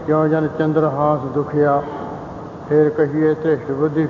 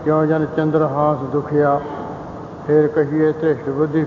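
First: The pause comes right after dukhia. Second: The pause comes right after dukhia.

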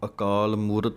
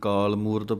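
First: It starts with a short 'a' before 'kaal'. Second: It starts directly with 'kaal', no opening vowel. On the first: The speaker calls it right. "इस पाठ नूं अकाल मूरत ही पढ़ना है" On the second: The speaker calls it wrong. "कई काल मूरत पढ़ जाते हैं ऐड़ा छड़ जाते हैं"

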